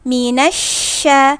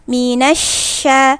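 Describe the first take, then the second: Both takes have the same delivery.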